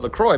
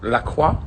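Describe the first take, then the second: First: The name is said with English sounds. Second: The name is said with French sounds. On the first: This is how the company says it. "I think the company themselves call it LaCroix" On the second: This follows the name's French origin. "shouldn't we pronounce it more French than that?"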